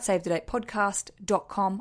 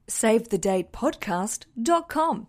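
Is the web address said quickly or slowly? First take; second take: quickly; slowly. First: The address is spoken very quickly. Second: The address is spoken slowly and clearly. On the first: The speaker calls it wrong. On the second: The speaker calls it right.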